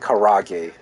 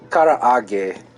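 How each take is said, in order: First: The middle has a single 'a' sound. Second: The middle has a doubled 'a' sound. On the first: The speaker calls it wrong. "Americanized as karage" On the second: The speaker calls it right. "it's karaage because of that extra A"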